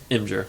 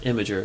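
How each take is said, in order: First: The word is said with two syllables. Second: The word is said with three syllables. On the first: The speaker calls it right. "There's only two syllables" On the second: The speaker calls it wrong. "It's not Imager"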